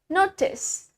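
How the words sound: It is said in a British accent.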